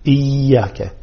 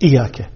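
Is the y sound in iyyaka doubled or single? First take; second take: doubled; single. First: The y sound is held and doubled. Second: The y sound is short and single. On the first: It means you alone. The speaker calls it right. "نشدد الياء" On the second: It names the sun. The speaker calls it wrong. "لا يظهر شدة الياء"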